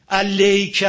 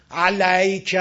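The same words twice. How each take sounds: First: "علیک" loud, with the a turned into e; wrong closed vowel. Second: "علیک" loud, with a fully open a before y; wrong open vowel. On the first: Teacher shows another mistake, "علیک" with a full e. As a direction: say "علیک" as "aleyka", too closed. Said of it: "اینم غلطه". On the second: Teacher shows a mistake, "علیک" with too open an a. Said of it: "این غلطه". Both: Shown as a demonstration.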